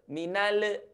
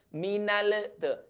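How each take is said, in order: First: The final l is held without any echo. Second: The final l is released with a bouncing echo. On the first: The speaker calls it right. "Jangan, jangan dilepas dulu" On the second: The speaker calls it wrong. "akan ada efek suara memantul"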